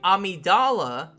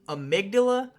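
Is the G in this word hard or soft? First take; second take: soft; hard. First: The G is pronounced as a soft G sound. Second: The G is pronounced as a hard G sound. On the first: It refers to the boss of the game. "with the soft G" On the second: It refers to a part of the brain. "with the hard G"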